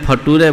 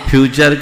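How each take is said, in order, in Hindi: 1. यह fa-too-ray की तरह बोला जाता है। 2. यह fyoo-cher की तरह बोला जाता है। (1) "बाप फ्यूचर को फटूरे बोलेगा" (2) "बाप फ्यूचर को फटूरे बोलेगा"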